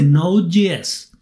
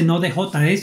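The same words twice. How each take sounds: First: The letters j and s use English names. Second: The letters j and s use Spanish names. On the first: The speaker calls it right. "la J se pronuncia G S" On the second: The speaker calls it wrong. "la gente no dice Node.js"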